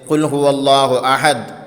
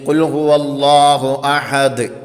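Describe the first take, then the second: First: The final consonant stops flat without echo. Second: The final consonant ends with a ringing echo. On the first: The speaker calls it wrong. "അല്ലാതെ എങ്ങനെ ആകരുത്" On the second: The speaker calls it right. "അഹദ് അങ്ങനെ തന്നെ കേൾക്കണം"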